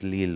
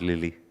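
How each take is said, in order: First: The name is said the French way. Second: The name is said the English way. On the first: The speaker calls it right. "It's Lille, right?" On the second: The speaker calls it wrong. "Not Lily"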